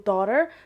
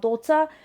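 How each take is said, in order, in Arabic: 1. تُنطق بلهجة أمريكية. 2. تُنطق بلهجة بريطانية. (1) "في الطريقة الأمريكية" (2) "الطريقة البريطانية"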